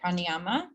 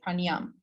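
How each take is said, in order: First: The word ends with a final vowel sound. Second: The word ends without the final vowel sound. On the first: "some people will say pranayama" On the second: "the dropping off of the vowel at the end"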